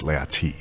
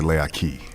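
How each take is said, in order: First: The word is said with a T sound. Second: The word is said with a K sound. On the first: It is the proper, formal way of saying it. "in a proper way, ... with a T" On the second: It is the casual way of saying it. "if you were saying it casually, ... with a K"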